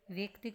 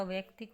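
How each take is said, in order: First: वैयक्तिक said with e, as veyaktik; wrong e vowel. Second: वैयक्तिक with open ai, as vaiyaktik; ai vowel. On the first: Teacher shows the mistake, वैयक्तिक starting ve. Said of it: "नहीं होता". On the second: Teacher gives the correction, वैयक्तिक starting vai. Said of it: "होता है". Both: Shown as a demonstration.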